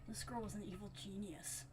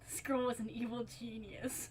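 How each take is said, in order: First: It is said in the male narrator's voice. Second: It is said in a voice not the narrator's.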